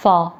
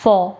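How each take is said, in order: First: "far" with a wide open aa vowel; "far" said distinct from "for". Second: "for" with a rounded aw vowel; "for" said distinct from "far". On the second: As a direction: round "for" to sound like "faw". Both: Shown as a demonstration. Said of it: "difference है दोनों में".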